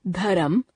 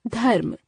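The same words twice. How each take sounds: First: धर्म said as "dharam" with an extra vowel, rising; teacher shows the wrong way, dharam; wrong form. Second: धर्म said as "dharm" in one syllable, falling; teacher gives the right way, dharm; correct form. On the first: Teacher to students, demonstrating the wrong pronunciation. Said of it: "अशुद्ध". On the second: Teacher to students, giving the correct pronunciation. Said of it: "शुद्ध". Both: Shown as a demonstration.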